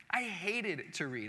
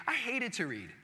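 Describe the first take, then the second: First: "I hated to read" said slower and a bit softer, every word weighed; slow emphatic repeat. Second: Said in the usual way. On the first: Real, not acted. Pastor repeats to the church that he hated reading, slow and weighty. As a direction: lean on it slowly, letting it sink in.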